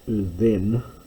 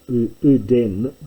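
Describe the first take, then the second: First: The middle consonant is a th sound. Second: The middle consonant is a d sound. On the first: This is the later form found in the Septuagint. "gets pronounced as uthen" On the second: This is the older classical form. "uden gets pronounced as"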